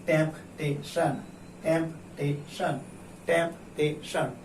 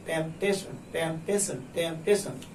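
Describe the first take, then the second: First: "temptation" split into temp, tay, shun; slowly, syllable by syllable. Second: Said in the usual way. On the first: Shown as a demonstration. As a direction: sound out "temptation" with a gap after each syllable. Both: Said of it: "उसे धीरे-धीरे पढ़िए".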